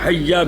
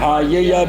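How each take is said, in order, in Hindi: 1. दोनों एक जैसे अक्षर मिलकर एक हो जाते हैं। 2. दोनों एक जैसे अक्षर अलग-अलग बोले जाते हैं। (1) "तो हैया भी जायज़" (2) "हाया भी जायज़ है"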